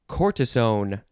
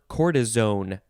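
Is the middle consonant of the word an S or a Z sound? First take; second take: S sound; Z sound. First: The middle consonant is an S sound. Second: The middle consonant is a Z sound. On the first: "with an S or a Z sound" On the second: "with an S or a Z sound"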